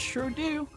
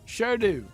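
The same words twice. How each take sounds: First: It is said in a Southern American accent. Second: It is said in an Australian accent. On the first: "What the heck is this southern accent coming from?" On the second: "how do I do Australian?"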